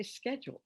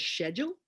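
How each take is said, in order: First: SCHEDULE starting with "sk"; the American "skedule", quieter; American pronunciation. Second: SCHEDULE starting with "sh"; the British "shedule"; British pronunciation. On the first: Shown as a demonstration. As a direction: say "Schedule" as "sked-jool", softly. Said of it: "and I say". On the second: Retold or imitated. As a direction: say "Schedule" as "shed-yool", rising at the end. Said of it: "she says".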